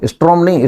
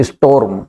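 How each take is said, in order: First: "Storm" said the wrong way as "strom", r before o; the common mistake "strom" for "Storm"; wrong pronunciation. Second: "storm" said correctly as "storm", o before r; right pronunciation. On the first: Teacher to the class, demonstrating the wrong "strom". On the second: Teacher to the class, giving the correct "storm". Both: Shown as a demonstration.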